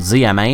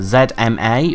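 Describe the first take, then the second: First: Z is said as zee, American style. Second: Z is said as zed, British style.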